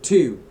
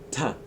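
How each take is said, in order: First: The word is said with a full vowel. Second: The word is said with a reduced vowel. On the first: The speaker calls it wrong. "we don't say to" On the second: The speaker calls it right. "you say ta"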